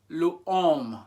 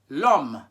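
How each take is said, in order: First: The vowel of le is kept before homme. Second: The vowel of le is dropped before homme. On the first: The speaker calls it wrong. "we should say le homme" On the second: The speaker calls it right. "instead of saying le homme, we say l'homme"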